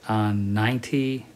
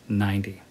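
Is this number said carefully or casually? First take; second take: carefully; casually. First: It is said carefully, each sound distinct. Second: It is said casually, with relaxed sounds. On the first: "90 is okay" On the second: "but normally we'll say 90"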